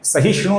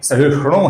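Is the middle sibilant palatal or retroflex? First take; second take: palatal; retroflex. First: The middle sibilant is a palatal sh sound. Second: The middle sibilant is a retroflex sh sound. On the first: The speaker calls it wrong. "ये श नहीं है, सहिष्णु नहीं है" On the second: The speaker calls it right. "सहिष्णु है"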